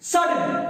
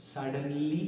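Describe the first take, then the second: First: SUDDENLY shouted high and loud; Suddenly cried out high, sharp and loud; dramatic exclamation. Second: Said in the usual way. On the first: Shown as a demonstration. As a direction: burst out with Suddenly to startle. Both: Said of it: "Suddenly means".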